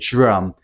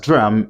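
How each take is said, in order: First: It begins with a j-like sound. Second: It begins with a plain d sound. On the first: "if you like to speak with the modern R P, you can just say drum" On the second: "If you pronounce it as drum, it's also correct"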